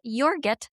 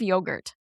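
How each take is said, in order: First: The word has a childlike altered pronunciation. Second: The word has its standard adult pronunciation. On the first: It imitates how a young child said it. The speaker calls it wrong. "my child said" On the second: It is the usual pronunciation. The speaker calls it right. "instead of"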